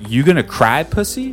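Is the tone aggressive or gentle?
aggressive. It is said in an aggressive tone.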